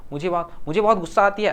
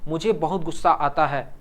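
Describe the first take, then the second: First: Wrong form shown. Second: Said in the usual way. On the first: Shown as a demonstration. Teacher to students, demonstrating the wrong gender form, mildly raised. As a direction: set up "मुझे बहुत गुस्सा आती है" as the wrong usage to avoid. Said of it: "ऐसा तो नहीं बोलते". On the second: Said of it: "ऐसा बोलते हैं ना".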